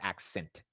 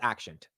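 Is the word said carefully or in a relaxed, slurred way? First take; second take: carefully; relaxed. First: The ending is said carefully and distinctly. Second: The ending is said in a relaxed, slurred way. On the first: The speaker calls it right. "instead of accent" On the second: The speaker calls it wrong. "if I'm being natural, it's accent"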